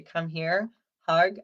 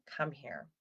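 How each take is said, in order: First: "Come here" called out louder with a rising lift; bright beckoning call to a child; cheerful call to hug. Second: Put-on soft, falling "Come here" to a crying child; quiet tender "Come here"; soothing invitation. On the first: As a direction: mom calling her kid in for a hug, loud and upbeat. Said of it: "They know if I say". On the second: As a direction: gently draw the upset child in. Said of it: "my go-to with my kids is saying". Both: Shown as a demonstration.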